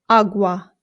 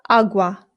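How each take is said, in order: Both takes have the same delivery.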